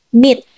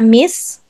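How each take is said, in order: First: The word ends with a t sound. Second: The word ends with an s sound. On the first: The speaker calls it right. "but meat" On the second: The speaker calls it wrong. "Hindi siya miss"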